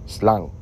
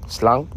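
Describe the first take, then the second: No difference in how they are said.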